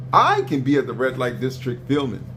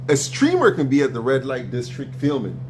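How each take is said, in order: First: "I" hit first and hardest, the rest falling away; stress on I. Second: "streamer" hit first and hardest, the rest falling away; stress on streamer. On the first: Arguing with Neo about himself filming, "I" stressed. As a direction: lean on "I" to make it personal. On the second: Arguing with Neo about streamers, "streamer" stressed. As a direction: lean on "streamer" as the one who films. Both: Shown as a demonstration.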